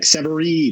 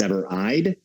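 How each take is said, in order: First: The last syllable has no 'eye' vowel. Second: The last syllable has an 'eye' vowel. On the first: The speaker calls it wrong. "everyone's like Severeid" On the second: The speaker calls it right. "it is pronounced Severeid"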